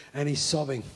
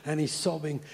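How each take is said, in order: Both takes have the same delivery.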